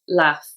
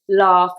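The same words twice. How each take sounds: First: It is said in a Liverpool accent. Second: It is said in a Southern English accent.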